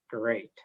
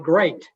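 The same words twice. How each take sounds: First: The word sounds grudging and sarcastic. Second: The word sounds plain and sincere. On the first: The day was not actually great. "my words say one thing, but my tone of voice is contradicting" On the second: The day really was great. "That's what I told her"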